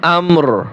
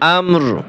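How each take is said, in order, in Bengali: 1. শব্দটি একটি খালি 'r' ধ্বনি দিয়ে শেষ হয়। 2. শব্দটি একটি খালি 'r' ধ্বনি দিয়ে শেষ হয়।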